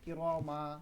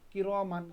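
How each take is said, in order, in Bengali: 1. শব্দটি n ছাড়া স্বরধ্বনি দিয়ে শেষ হয়। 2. শব্দটি স্পষ্ট n ধ্বনি দিয়ে শেষ হয়। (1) "এখানে থামা লাগতেছে, তাহলে কি করবেন?" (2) "উচ্চারণ করবেন যেমন কির মান উচ্চারণ করলেন"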